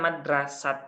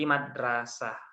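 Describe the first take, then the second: First: The word ends in a stopped T sound. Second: The word ends in a soft H sound. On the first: The speaker calls it wrong. "bukan mati T" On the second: The speaker calls it right. "tapi mati H"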